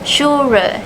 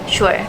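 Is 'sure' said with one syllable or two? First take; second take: two; one. First: The word is split into two syllables. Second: The word is said as one syllable. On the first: The speaker calls it wrong. "pronounced as two syllables" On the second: The speaker calls it right. "instead of one"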